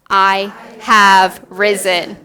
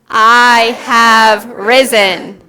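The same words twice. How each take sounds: First: It is said in a calm, plain way. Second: It is said forcefully, with conviction.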